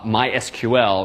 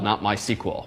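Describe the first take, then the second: First: The name is said with more syllables. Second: The name is said with fewer syllables. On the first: "they do in fact pronounce themselves uh" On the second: "It's a lot faster uh, and fewer syllables to say MySQL"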